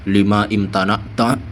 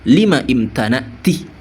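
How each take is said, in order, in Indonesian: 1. Kata terakhir berakhir dengan bunyi 'ta'. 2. Kata terakhir berakhir dengan bunyi 'ti'. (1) "Itu bukan domir mudakar, bukan lima imtana tah" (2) "Jadi bacanya bagaimana?"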